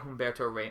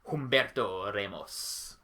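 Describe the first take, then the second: First: The name is said flat, without any flourish. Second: The name is said with a flamboyant, dramatic inflection. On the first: The speaker calls it wrong. "you can't say it Humberto Ramos" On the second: The speaker calls it right. "without some type of cool inflection"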